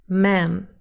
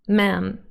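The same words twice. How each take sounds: First: The word is cut to one syllable. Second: The word is cut to one syllable.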